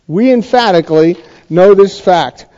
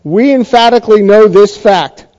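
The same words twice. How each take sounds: First: Said in the usual way. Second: Stressed "We" in "We emphatically know this fact"; emphatic reading. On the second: Shown as a demonstration. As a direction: stress on "We", said firmly with a fall. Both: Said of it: "here's what it could say".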